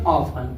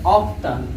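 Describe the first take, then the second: First: The t sound is left out in the middle. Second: The t sound is pronounced in the middle. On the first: The speaker calls it right. "टी silent है इसलिए क्या पढ़ेंगे" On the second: The speaker calls it wrong. "इसको अगर पढ़ना होता तो हम क्या पढ़ते"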